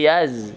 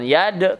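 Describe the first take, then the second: First: The syllable ends with a z sound. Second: The syllable ends with a d sound. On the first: The speaker calls it right. "tapi yaz" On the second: The speaker calls it wrong. "jangan yad"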